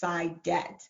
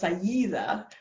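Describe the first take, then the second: First: The name is said with its Nigerian pronunciation. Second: The name is said with its Arabic pronunciation. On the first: This is the family's own form. "my dad is from Nigeria, and so the pronunciation is Saidet" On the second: This is the name's original form. "it's actually pronounced Sayida"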